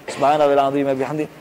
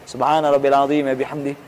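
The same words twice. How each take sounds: No difference in how they are said.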